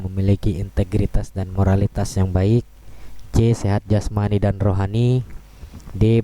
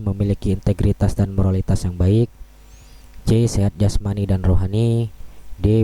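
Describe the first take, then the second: No difference in how they are said.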